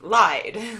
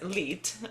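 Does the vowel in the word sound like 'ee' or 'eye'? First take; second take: eye; ee. First: The vowel is an 'eye' sound. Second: The vowel is a long 'ee' sound. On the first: It is the English past tense of lie. "in English, if we look at that word and it's pronounced like lied, like you lied" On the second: It is the German word for song. "L I E D in German is Lied"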